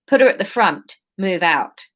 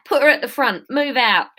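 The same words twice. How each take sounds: First: Put-on London accent slipping into Australian; a touch of accidental Australian; unintended Australian accent. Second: Higher-pitched London accent attempt. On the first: Leader ordering captives to move, accent gone slightly Australian. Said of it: "Why is this going Australian?". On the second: Leader ordering captives to move, higher London accent. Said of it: "this isn't Londony at all".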